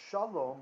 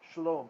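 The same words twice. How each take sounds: First: The first vowel is a full vowel. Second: The first vowel is a reduced schwa. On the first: It is the plain, independent form. The speaker calls it wrong. "it's not shalom" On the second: It is bound to the following noun. The speaker calls it right. "it's a vocal schwa"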